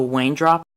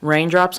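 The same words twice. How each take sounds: First: "Wayne drops" for raindrops; r in raindrops turned into w; says w for r. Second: Said in the usual way. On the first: Shown as a demonstration. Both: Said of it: "Wayne drops raindrops".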